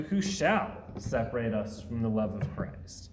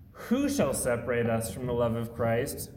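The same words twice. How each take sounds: First: Bold, certain rhetorical question; confident. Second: Worried, anxious question; concerned. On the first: Preacher showing the verse read in triumph, confident and excited. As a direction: ask it knowing no one can. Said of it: "Or do we approach this in confidence and excitement?". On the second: Preacher showing the verse read in worry, concerned. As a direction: ask it as if threats are pulling us away. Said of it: "The first one seems to approach this in concern". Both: Shown as a demonstration.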